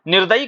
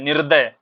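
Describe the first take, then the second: First: निर्दयी ending in a long ee; wrong form निर्दयी. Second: निर्दय with no final ee; correct form निर्दय. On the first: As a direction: add the final ee in निर्दयी. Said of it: "निर्दयी कुछ नहीं होता है". (निर्दयी, अंत में ई के साथ) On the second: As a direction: stop निर्दय at the y, without ee. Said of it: "सही शब्द क्या होता है". (निर्दय, अंत में ई के बिना) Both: Shown as a demonstration.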